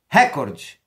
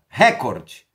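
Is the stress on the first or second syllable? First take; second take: first; first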